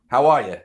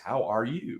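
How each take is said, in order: First: The last word is reduced to ya. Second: Every word is said fully and crisply. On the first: The speaker calls it right. "maybe that's my New York accent" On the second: The speaker calls it wrong. "delivered very clearly like that's s strange"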